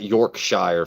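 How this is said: The name is said the American way. The speaker calls it wrong. "That's how we say it as Americans"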